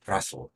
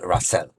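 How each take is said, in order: First: The vowel before the final L is nearly silent. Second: The vowel before the final L is clearly pronounced. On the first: The speaker calls it right. "takie półmilczące szwa pod koniec" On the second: The speaker calls it wrong. "a nie"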